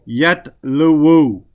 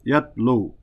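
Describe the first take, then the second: First: The word ends with an added 'wu' syllable. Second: The word ends on 'lu' with nothing added. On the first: The final vowel ending is spoken out loud. The speaker calls it wrong. "yatluwu is difficult" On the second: The final vowel ending is only implied. The speaker calls it right. "the dhamma there is muqaddara"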